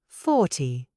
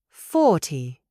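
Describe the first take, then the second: The two takes are said the same way.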